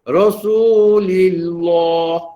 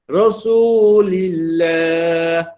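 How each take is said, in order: First: The 'l' in 'lillah' sounds heavy and thick. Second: The 'l' in 'lillah' sounds light and thin. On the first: The speaker calls it wrong. "tak maulah dibaca Rasulillah" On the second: The speaker calls it right. "Nipiskan pada lam yang bersabdu tu"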